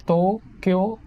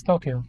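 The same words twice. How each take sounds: First: Tokyo slowly split, TOOH... KYOOH; each syllable emphasized. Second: Tokyo short and falling, TOH-kyo; usual English pronunciation. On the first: Showing how it is to them, syllables drawn out. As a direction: hold both o's in Tokyo, rising. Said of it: "they emphasize on each syllable". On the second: Giving a fun fact, the everyday English Tokyo. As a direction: say Tokyo quickly, unstretched. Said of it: "you pronounce it as". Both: Shown as a demonstration.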